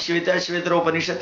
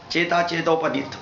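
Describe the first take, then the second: First: The name is said in full, every syllable clear. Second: The name is clipped, with sounds changed and dropped. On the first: The speaker calls it right. "the pronunciation of Shveta Shvetara Upanishad" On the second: The speaker calls it wrong. "is done as Cheta Chetopanit"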